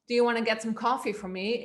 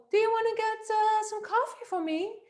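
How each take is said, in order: First: Quick question in natural low register; lower-pitched. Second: Put-on voice held very high; high-pitched woman voice. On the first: Coach demonstrating an authoritative request, lower-pitched. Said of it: "if I speak lower and I say". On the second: Coach imitating a woman lacking authority, high-pitched voice. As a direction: ask in a high, feminine pitch. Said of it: "imagine the high-pitched, uh, woman voice". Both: Shown as a demonstration.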